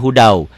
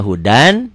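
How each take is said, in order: First: "hudau" ending in a w glide in place of n; as it is read. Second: Said in the usual way. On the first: Shown as a demonstration. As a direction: close "hudau" on w, dropping the n. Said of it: "bacanya hudau". ("hudau", akhiran n jadi bunyi w) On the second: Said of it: "Tulisannya hudan".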